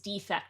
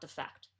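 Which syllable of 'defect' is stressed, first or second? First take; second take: first; second. First: The stress is on the first syllable. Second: The stress is on the second syllable. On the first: The speaker calls it right. "So it's defect" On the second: The speaker calls it wrong. "not defect"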